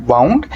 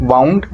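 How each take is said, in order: Both takes have the same delivery.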